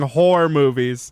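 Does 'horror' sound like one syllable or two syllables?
one syllable. Horror is squeezed into one syllable, like 'whore'. This is how the word comes out in a Maine accent. "I was saying horror movies"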